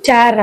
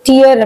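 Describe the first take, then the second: First: The vowel rhymes with the word air. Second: The vowel rhymes with the word ear. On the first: It is the verb meaning to rip apart. "Second pronunciation வந்து டேர் அப்படின்னு சொல்லியிருக்கோம்" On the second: It is the noun meaning drops from the eyes. "First pronunciation என்னன்னு பார்த்தீங்கன்னா டியர் அப்படின்னு சொன்னோம்"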